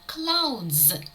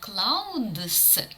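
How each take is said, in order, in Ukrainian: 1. Слово закінчується дзвінким звуком z. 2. Слово закінчується глухим звуком s. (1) "а clouds" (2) "Не clouds"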